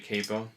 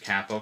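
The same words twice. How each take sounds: First: It is pronounced the American English way. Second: It is pronounced the way other countries say it. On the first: "American English, we say capo" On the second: "Other countries, capo. Capo's the authentic way"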